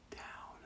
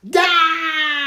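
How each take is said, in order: First: Much softer whispered down. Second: Much higher, louder scream of Down. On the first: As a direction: breathe the word Down secretly. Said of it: "what do you think the witch is going to say". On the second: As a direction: scream Down with the children. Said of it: "Scream it loud with me". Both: Shown as a demonstration.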